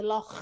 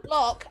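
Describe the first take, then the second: First: "loch" with a long throaty ch; "loch" ending in a drawn kh, not k; correct Scottish pronunciation. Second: "Loch" said as lock; "Loch" with no throaty sound, just lock; old mispronunciation. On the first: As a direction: rasp out the end of "loch". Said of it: "I did it all, but yeah". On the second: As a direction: end "Loch" on a hard k. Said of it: "It used to be". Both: Shown as a demonstration.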